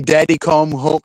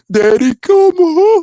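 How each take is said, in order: First: Said in the usual way. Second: High, loud, slow mocking wail; mocking the plea in a high voice, not his own; mocking falsetto. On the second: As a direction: stretch it out in a squealing falsetto.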